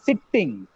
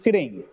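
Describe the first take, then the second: First: The T sound is doubled and held long. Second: The T sound is single and short. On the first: The speaker calls it wrong. "It is not sitting" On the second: The speaker calls it right. "Though the word has double T, the sound should be single"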